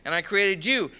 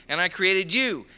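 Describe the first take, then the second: No difference in how they are said.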